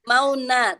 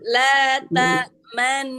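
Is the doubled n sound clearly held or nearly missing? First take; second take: missing; held. First: The doubled n is weak and nearly missing. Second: The doubled n is clearly held and heard. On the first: The speaker calls it wrong. "Bukan mau na" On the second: The speaker calls it right. "jadi sebenarnya nun tasdid"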